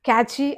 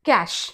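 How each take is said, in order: First: It sounds like 'catchy', with two syllables. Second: It sounds like 'cash', ending in sh. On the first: The speaker calls it wrong. "మనం ఏమంటాం? క్యాచీ అని కానీ" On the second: The speaker calls it right. "ఇక్కడ అది కాదు, క్యాష్"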